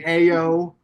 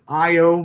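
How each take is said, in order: First: The name starts with an 'ah-yo' sound. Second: The name starts with an 'eye-oh' sound. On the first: The speaker calls it wrong. "I've been saying Ayo" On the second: The speaker calls it right. "It's Io Manor"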